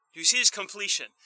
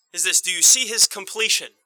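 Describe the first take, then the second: First: The same question again, faster and lighter; a brisk restatement of "completion"; quicker repeat. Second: The question asked out loud, with weight; emphatic question. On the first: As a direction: rush the question through a second time. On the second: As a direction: press the question home to the congregation. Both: Shown as a demonstration. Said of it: "repeated question".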